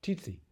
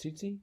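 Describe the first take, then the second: First: Tsetse said TEE-see, T sounded first; corrected pronunciation. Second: Tsetse said "SEE-see", no T sound; unsure pronunciation. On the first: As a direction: try out "Tsetse" with a clear opening T, higher. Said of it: "That's how I say it". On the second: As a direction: ask "Tsetse?" softly as SEE-see, higher and rising. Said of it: "how's it pronounced?". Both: Shown as a demonstration.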